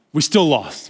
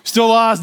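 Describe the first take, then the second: First: Said in the usual way. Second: Exasperated, land Still lost hard; punched exasperated repeat. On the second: Real, not acted. Telling the church they lost again, exasperated. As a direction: Still lost, higher and louder, hitting lost. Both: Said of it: "repeated punchline about the loss".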